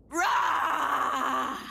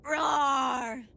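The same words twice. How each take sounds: First: Louder crying monster roar, full commitment; monster roar with feeling. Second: Shouted giant monster roar. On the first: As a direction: give the giant monster roar everything. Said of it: "Once more with feeling?". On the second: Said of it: "Like a giant monster". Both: Pretend.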